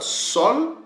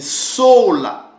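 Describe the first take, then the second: First: It is one syllable with a short o. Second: It is two syllables ending in a. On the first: The speaker calls it wrong. "ça sera soit sol ou soit soul" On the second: The speaker calls it right. "la bonne prononciation, c'est sola"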